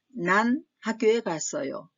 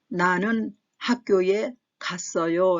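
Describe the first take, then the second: First: The first word is shortened to one syllable, nan. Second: The first word is said in full as na-neun.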